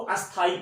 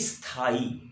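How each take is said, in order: First: A short vowel is added before the s sound. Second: The word begins directly with the s sound. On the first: The speaker calls it wrong. "बहुत सारे लोग इसको अस्थाई पढ़ते हैं" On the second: The speaker calls it right. "तो अब इसको पढ़ेंगे स्थाई"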